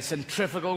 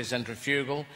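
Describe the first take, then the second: First: Centrifugal with stress on TRIF; centrifugal, second syllable stressed; American pronunciation. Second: Centrifugal as sen-tri-FYOO-gul; centrifugal, third syllable stressed; British pronunciation. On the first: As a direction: say centrifugal as sen-TRIF-uh-gul. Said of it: "you say". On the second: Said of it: "we say". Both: Shown as a demonstration.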